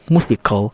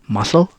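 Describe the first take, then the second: First: The c is said as a k. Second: The c is silent. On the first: The speaker calls it wrong. "people also think C can be read as letter K" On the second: The speaker calls it right. "the C becomes silent"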